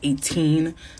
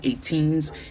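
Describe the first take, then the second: First: The word ends without an s sound. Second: The word ends with an s sound. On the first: The speaker calls it right. "it's eighteen" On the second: The speaker calls it wrong. "it's not eighteens"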